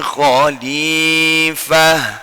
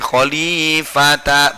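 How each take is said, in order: First: The word ends with a soft h sound. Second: The word ends with a ta syllable. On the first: The speaker calls it right. "Bacanya fil ardi khalifah" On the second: The speaker calls it wrong. "bukan khalifata"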